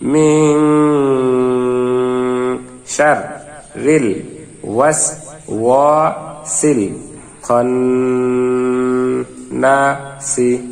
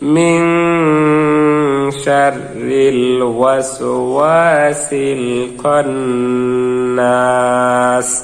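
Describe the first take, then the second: First: Each syllable is said separately with small pauses. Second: The syllables flow together without pauses between them. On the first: "ভাঙ্গা ভাঙ্গা উচ্চারণ করবো।" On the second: "মিলিয়ে পড়বে এখন।"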